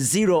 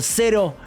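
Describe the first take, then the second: First: The name is said with English pronunciation. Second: The name is said with Spanish pronunciation.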